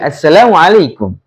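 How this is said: The greeting is said with a low pitch. The speaker calls it right. "nadanya kan rendah ya"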